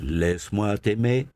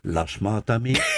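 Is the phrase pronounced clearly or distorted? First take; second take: clear; distorted. First: The phrase is pronounced clearly in standard French. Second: The sounds are garbled, like 'lâche-moi ta mie'. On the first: This is the intended lyric. "je dis à Mike, vas-y" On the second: The singer could not pronounce the French lyric. "Et j'entends"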